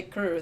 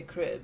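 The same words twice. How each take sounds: First: "kur" with the vowel of "ticker"; schwa vowel. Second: "kri" with an i after the r; ee vowel. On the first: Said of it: "it's a schwa sound". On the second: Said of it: "than to say". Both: Shown as a demonstration.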